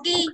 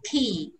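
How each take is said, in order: First: The first consonant has no puff of air. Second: The first consonant has a small puff of air. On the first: The speaker calls it wrong. "không đọc key" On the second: The speaker calls it right. "mà đọc là key"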